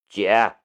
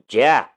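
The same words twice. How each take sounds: First: The word is said very softly. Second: The word is said loudly. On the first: The speaker calls it wrong. "声音太小，我听不见。" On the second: The speaker calls it right. "这才对"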